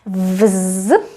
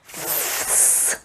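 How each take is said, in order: First: The prefix ends with a voiced z sound. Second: The prefix ends with a voiceless s sound. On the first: "it's not always pronounced as vz" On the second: "but also sometimes as vs"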